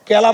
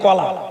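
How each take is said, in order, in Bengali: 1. প্রথম স্বরধ্বনিটি 'e' এর মতো শোনায়। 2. প্রথম স্বরধ্বনিটি 'o' এর মতো শোনায়। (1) "কেলা বলা যাবে না"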